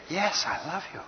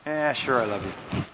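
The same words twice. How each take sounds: First: Softly and earnestly, voice lifted; mean every word; heartfelt, gentle I love you; sincere. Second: Dismissive. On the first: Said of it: "then they believe the totality". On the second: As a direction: toss it off as if you don't mean it. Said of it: "Do people believe the words or the dominant message". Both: Shown as a demonstration.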